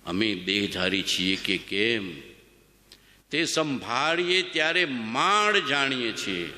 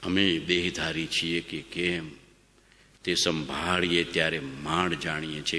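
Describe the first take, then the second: First: Slow reverent recitation of scripture; reverent scripture reading. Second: Said in the usual way. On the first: Shown as a demonstration. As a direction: read the master's words slowly, with awe. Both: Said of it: "શું લખ્યું છે ભગવાને?".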